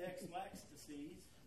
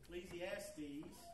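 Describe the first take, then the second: First: The word starts with the sounds 'Ex-Lax'. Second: The word starts with the sounds 'Ecc-le'. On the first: The speaker calls it wrong. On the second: The speaker calls it right.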